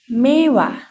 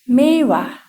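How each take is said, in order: The two takes are said the same way.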